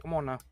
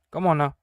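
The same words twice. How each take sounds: First: Said in the usual way. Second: "on" hit loud and falling; louder come on now. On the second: Shown as a demonstration. Gamer urging the game on, loud come on now. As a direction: push it out impatiently. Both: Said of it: "repeated louder".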